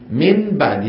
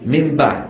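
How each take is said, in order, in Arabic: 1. النون تُنطق بطرف اللسان. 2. النون تتحول إلى صوت m. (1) "فيقرا النون بطرف لسانه" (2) "يقلبون النون الى ميم فيقولون"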